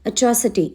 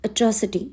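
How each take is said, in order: Both takes have the same delivery.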